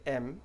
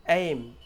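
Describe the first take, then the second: First: "एम" with short e, like letter M; wrong non-native vowel. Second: "एम" loud, with e gliding into i; correct "ei" diphthong. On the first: Teacher showing learners' mistake, "एम" as short "em". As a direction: drop the glide from "एम", say "em". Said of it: "इसको wrongly कैसे pronounce करते हैं". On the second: Teacher correcting learners, "एम" with a full ei glide. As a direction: open "एम" out into "eh-eem". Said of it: "correctly कैसे pronounce करना है". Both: Shown as a demonstration.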